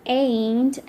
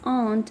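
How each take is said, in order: First: It is said in an American accent. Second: It is said in a British accent. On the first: "in American" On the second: "in British"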